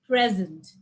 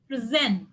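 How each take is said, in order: First: The stress is on the first syllable. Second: The stress is on the second syllable. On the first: It is used as a noun. "In nouns, it's present" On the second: It is used as a verb. "verbs, it's present"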